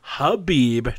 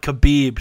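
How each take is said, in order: First: The name starts without any K sound. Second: The name starts with a hard K sound. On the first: The speaker calls it right. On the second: The speaker calls it wrong.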